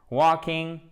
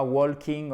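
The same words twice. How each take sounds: First: "Walking" said with no L sound; silent L. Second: "walking" with the L wrongly sounded; L prononcé à tort. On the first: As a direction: drop the L in "Walking". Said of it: "Le L ne se prononce pas". (« Walking » prononcé sans le L) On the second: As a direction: sound a clear L before the K in "walking". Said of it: "et c'est pas walking". (« walking » avec un L prononcé à tort) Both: Shown as a demonstration.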